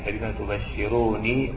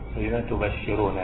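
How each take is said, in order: First: The word ends with a final 'ni' sound. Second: The word ends with a final 'na' sound. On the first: The speaker calls it wrong. "يعني على السنية يا المتكلم ... هذا خطأ" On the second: The speaker calls it right. "نون مفتوحة"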